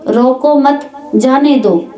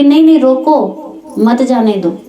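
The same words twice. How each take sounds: First: "रोको मत" joined, then "जाने दो" falling; break after मत. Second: "नहीं, नहीं, रोको" rising, pause, "मत जाने दो"; pause after रोको. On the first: Teacher recalls the first wording to listeners, break after मत. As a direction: run रोको into मत, then let जाने दो drop. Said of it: "शब्द वही थे". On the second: Correcting the order the second time, pause after रोको. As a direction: lift रोको, break, then group मत with जाने दो. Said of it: "लेकिन दूसरी बार जब कहा". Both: Shown as a demonstration.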